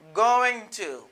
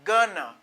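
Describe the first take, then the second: First: Going to is said as two full words. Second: Going to is reduced to one word, gonna. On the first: "I say, going to" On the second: "We say gonna"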